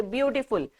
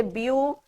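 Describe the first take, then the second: First: Said in the usual way. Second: Beautiful said as beau - ti - ful, three clear parts; beautiful broken syllable by syllable, like a teacher showing the parts; split into syllables. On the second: Shown as a demonstration. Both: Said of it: "how many parts have I broken this word into".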